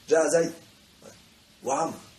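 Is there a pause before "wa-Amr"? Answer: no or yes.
yes. There is a pause before the last word. Only the first person came. The speaker calls it wrong. "إن الواو استئنافية، يعني وعمر لم يأتي"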